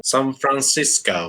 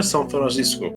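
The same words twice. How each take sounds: First: "سان فرانسیسکو" in put-on American English, lower; mock American accent. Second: Said in the usual way. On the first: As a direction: say the city with exaggerated American vowels. Echoes city name in foreign pronunciation.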